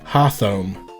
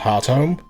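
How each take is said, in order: First: The t and h blend into a th sound. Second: The t and h are separate, heart-home. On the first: "I would have absolutely used a th sound" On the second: "I knew that that was pronounced Hearthome"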